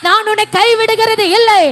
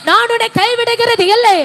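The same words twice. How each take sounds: The two takes are said the same way.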